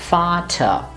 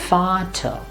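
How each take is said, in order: Both takes have the same delivery.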